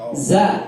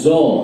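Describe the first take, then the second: First: The letter is thin, with an open a vowel. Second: The letter is thick, with an o-like vowel. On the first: The speaker calls it right. "ah berarti tipis" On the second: The speaker calls it wrong. "O berarti o tebal"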